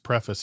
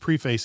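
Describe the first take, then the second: First: It is said with an American pronunciation. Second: It is said with a Canadian pronunciation.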